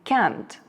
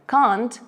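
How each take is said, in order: First: It is said in an American accent. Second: It is said in a British accent. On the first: "британці та американці вимовляють це слово трохи по-різному ... відповідно" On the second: "британці та американці вимовляють це слово трохи по-різному ... відповідно"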